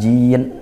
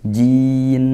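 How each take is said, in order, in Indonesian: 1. Bunyi n di akhir dipotong tiba-tiba. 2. Bunyi n di akhir masih terdengar sebentar. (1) "itu tidak dilep, dihentak jin berhenti, tidak" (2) "suaranya masih ngalir sedikit"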